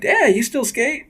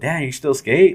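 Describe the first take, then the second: First: The tone sounds admiring and impressed. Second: The tone sounds doubtful and disbelieving. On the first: Still skating at that age seems cool. "Now it's like" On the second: Still skating at that age seems strange. "people used to go"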